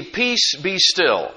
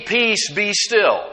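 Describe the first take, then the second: First: Commanding the storm. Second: Slow, measured command to the sea; calm command. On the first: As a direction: call out over the storm, but only lightly acted. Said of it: "rebuked the wind and said". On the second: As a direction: say it slowly and steadily, settling the water. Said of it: "And said to the sea". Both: Acted.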